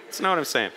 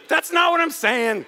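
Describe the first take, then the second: First: Low, toned-down repeat of a protest; subdued denial. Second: High-pitched, insistent denial; emphatic protest. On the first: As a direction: drop the voice and back off. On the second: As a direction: push back emphatically, voice raised high. Protests an imagined objection, then repeats. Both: Real, not acted.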